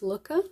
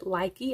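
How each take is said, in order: First: The first vowel sounds like 'oo'. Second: The first vowel sounds like 'eye'. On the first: The speaker calls it right. "I'm pretty sure the correct pronunciation is Looka" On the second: The speaker calls it wrong. "I think a lot of us pronounce it likey"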